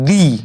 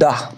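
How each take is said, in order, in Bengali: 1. স্বরধ্বনিটি দীর্ঘ 'ee' ধ্বনি। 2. স্বরধ্বনিটি ছোট 'uh' ধ্বনি। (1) "আরেকটা উচ্চারণ হচ্ছে দি, টি এইচ ডবল ই" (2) "ইংরেজিতে বললে ডি ইউ এইচ, দা"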